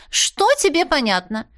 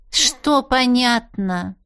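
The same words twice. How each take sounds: First: "Что тебе понятно" quicker and higher, pressing; heated challenge. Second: "Что понятно" stretched out slowly; drawn-out challenge. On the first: Cat presses the heroine, higher and heated. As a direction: demand it higher, pushing on "тебе". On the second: Cat challenges the heroine's reply, slow and pointed. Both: A narrator's reading.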